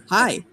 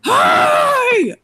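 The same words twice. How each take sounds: First: Said in the usual way. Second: Very high, loud squealed hello; exuberant greeting. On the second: Acted. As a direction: shout a delighted greeting way up high. Character greets after picking her up.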